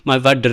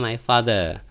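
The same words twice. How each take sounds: First: Father is said with a hard d sound. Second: Father is said with a soft th sound. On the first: The speaker calls it wrong. "kalau di India bener kayak gitu orang-orang ngomong my father gitu ya" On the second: The speaker calls it right. "yang bener atau pronunciation-nya adalah my father"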